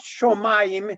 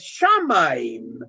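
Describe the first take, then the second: First: The first vowel is 'o'. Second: The first vowel is 'a'. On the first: The speaker calls it wrong. "es no shomaim" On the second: The speaker calls it right. "es shamaim"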